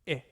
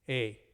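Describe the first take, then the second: First: The vowel sounds like 'ee' in spit. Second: The vowel sounds like 'ay' in eight. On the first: "Koine or modern pronunciation? It's like the I in spit" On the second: "if you go by the classical pronunciation, is like E I in eight"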